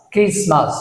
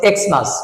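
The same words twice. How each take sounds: First: ক্রিসমাস with X said as kris; corrected pronunciation. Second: এক্সমাস with X said as eks; common mispronunciation. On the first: Teacher correcting Xmas to ক্রিসমাস, kris first. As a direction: start ক্রিসমাস on kris, not eks. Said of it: "ক্রিস pronunciation হচ্ছে". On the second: Teacher quoting what we say, এক্সমাস with eks. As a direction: say এক্সমাস starting on the letter name. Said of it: "আমরা বলছি এক্সমাস". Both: Shown as a demonstration.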